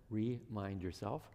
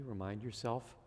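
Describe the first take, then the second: First: "remind" drawn out slowly, split as re-mind; slow down and separate the "re" in "remind"; "remind" pulled apart into two beats, after a small laugh; stress on "remind". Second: Said in the usual way. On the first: Shown as a demonstration. Replays the word as wordplay.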